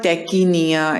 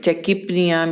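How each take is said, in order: First: The P sound is left silent. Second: The P sound is clearly pronounced. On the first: The speaker calls it wrong. "It's not tachypnea" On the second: The speaker calls it right. "sometimes in some words we pronounce like um, uh, tachypnea"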